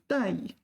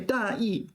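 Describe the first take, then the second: First: The second syllable is light and toneless. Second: The second syllable keeps a full falling tone. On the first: It means careless. "Careless. ... you have to be very careful with your pronunciation on this one" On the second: It means the main idea. "the main idea"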